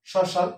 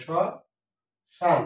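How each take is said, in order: First: Said in the usual way. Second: শ্মশান as 'shɔ... shan', silent m; very slow শ্মশান with sh in both halves; syllable by syllable. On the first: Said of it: "ময়ের উচ্চারণ হয় না". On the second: Shown as a demonstration. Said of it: "উচ্চারণ হচ্ছে তালব্য স". (শ... শান, ম ছাড়া ধীরে)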